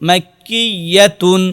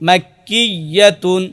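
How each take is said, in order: No difference in how they are said.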